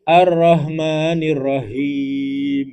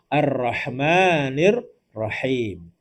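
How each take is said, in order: First: The h sound comes from low in the chest. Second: The h sound comes from the throat. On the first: The word comes to mean light drizzling rain. The speaker calls it wrong. "Yang tadi hanya agak sedikit di bawah leher atau di tengah dada" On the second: The word means the Most Merciful. The speaker calls it right. "hanya di leher"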